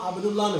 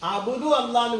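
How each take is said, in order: First: The two words run together, with no glottal catch. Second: The two words are said separately, with the glottal catch. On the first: The speaker calls it right. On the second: The speaker calls it wrong.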